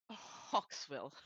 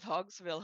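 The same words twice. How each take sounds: First: HAWKSVILLE with a K sound, like the bird hawk. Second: HAWKSVILLE said as Hogsville, with G and Z sounds; hogs as in pigs. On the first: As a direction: say Hawksville with a crisp K before the S. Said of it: "I was thinking hawk like the bird". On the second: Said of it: "Hawksville is funnier". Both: Shown as a demonstration.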